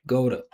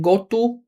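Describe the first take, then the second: First: The 'to' is reduced to a quick 'da'. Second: The 'to' is said fully and separately. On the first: The speaker calls it right. "still saying Goda" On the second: The speaker calls it wrong. "Stop saying go to"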